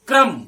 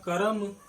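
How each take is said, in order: First: The k and r sounds blend with no vowel. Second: A full vowel separates the k and r sounds. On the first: The speaker calls it right. "लेकिन अभी हमने क्या उच्चारण किया? क्रम" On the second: The speaker calls it wrong. "यदि हम करम कहेंगे तो सिंपल सा पूरा पूरा तीनों अक्षर पूरे होंगे"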